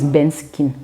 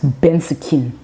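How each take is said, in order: First: It is said in a plain, neutral accent. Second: It is said in an indigenous Cameroonian accent.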